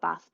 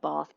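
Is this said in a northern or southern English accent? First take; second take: northern; southern. First: It is said in a northern English accent. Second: It is said in a southern English accent. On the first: "if you're from the north of uh, the U K" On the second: "if you have a very southern accent"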